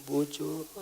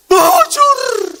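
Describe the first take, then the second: First: Feeble, not shouted. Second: Very high, loud yell of BUJUR; shouted. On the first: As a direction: say BUJUR softly, with no force at all. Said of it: "nggak dia bilang". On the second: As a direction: belt out BUJUR at full voice. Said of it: "Teriak dia". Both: Shown as a demonstration.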